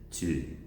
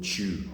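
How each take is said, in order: First: The word starts with a clear t sound. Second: The word starts with a ch sound. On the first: The speaker calls it right. "You have to pronounce t" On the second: The speaker calls it wrong. "We pronounce the word to as being chew"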